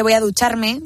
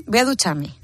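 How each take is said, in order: First: Said in the usual way. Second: "voy a ducharme" with the R in "ducharme" left out, "duchame"; dropped R. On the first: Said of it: "en vez de". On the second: Shown as a demonstration. Telling colleagues how the village drops R's, "duchame". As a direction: swallow the R in "ducharme". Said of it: "quitar las R's".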